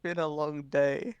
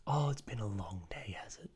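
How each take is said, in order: First: Slow, drawn-out reply; weary drawl. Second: Hushed, whispery echo; mock sympathy. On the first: Acted. Shopkeeper tells a concerned customer about his day, weary. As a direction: stretch it out wearily. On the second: Customer echoes the tired shopkeeper's complaint, mock sympathy. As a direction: whisper it back as if commiserating.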